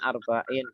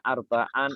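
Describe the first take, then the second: First: The word ends with an i sound. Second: The word ends with an a sound. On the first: "tidak an atau in" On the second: "tidak arbaan"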